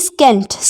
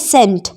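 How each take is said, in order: First: The word begins with an s then k sound. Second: The word begins with a plain s sound. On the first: The speaker calls it wrong. "ना कि स्केंट" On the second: The speaker calls it right. "इसको हम पढ़ेंगे सेंट"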